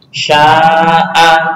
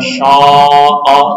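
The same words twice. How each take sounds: First: The long a vowel is light and thin. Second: The long a vowel is heavy and thick. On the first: The speaker calls it right. "dibaca tarkib apabila huruf pendahulunya juga tipis" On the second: The speaker calls it wrong.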